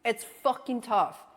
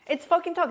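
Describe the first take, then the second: First: Said in the usual way. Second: "tough" कहें ऊँचा और ज़ोर से, अंत में गिरती लय; higher, louder, "tough" leaned on with a falling end; stress on tough. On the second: Real, not acted.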